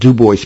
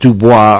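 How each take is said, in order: First: The name is said the local way. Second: The name is said the outsider way. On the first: The speaker is from the area. The speaker calls it right. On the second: The speaker is from outside the area. The speaker calls it wrong.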